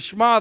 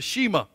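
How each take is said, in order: First: It is said with a Hebrew accent. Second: It is said with a Southern American accent. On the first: The speaker calls it right. "you got a good Hebrew uh, slant to it" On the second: The speaker calls it wrong. "redneck, I call it the Shema"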